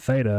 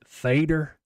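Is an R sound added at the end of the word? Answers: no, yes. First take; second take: no; yes. First: The word ends without an added R sound. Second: The word ends with an added R sound. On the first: The speaker is from somewhere else. "If you're not from here, you're going to pronounce it theta" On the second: The speaker is a longtime local. "if you pronounce it theater, you know you're an O G"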